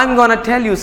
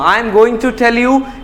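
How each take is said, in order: First: "Going to" is shortened to "gonna". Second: "Going to" is said as two full words.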